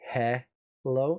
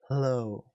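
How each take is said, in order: First: A full vowel is sounded after the H. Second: Only a breathy H leads into the L. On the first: The speaker calls it wrong. "I don't say he hello" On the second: The speaker calls it right. "Just a h sound into the l"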